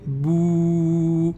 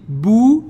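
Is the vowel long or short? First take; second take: long; short. First: The vowel is drawn out long. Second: The vowel is short.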